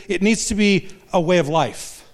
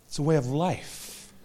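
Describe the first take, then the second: First: Firm, stressed on needs; preacher's emphatic statement. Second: Softer, slower restatement of "It's a way of life"; a gentle reflective echo. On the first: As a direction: drive the point home on needs. Repeats key line, then softer. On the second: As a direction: let "It's a way of life" land quietly and slowly. Echoes line softer and slower. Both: Shown as a demonstration.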